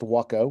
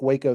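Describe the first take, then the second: First: It is pronounced unlike the city's name. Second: It is pronounced like the city's name. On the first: It names the airplane company. "pronounced Waco for the it's it's how the uh, com- the uh, company is pronounced" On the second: It names the city. "spelled like Waco, the city"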